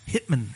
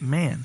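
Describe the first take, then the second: First: The last syllable is clipped short. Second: The last syllable is drawn out long. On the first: "the last syllable of a word sometimes you shorten" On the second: "instead of lengthen the last syllable"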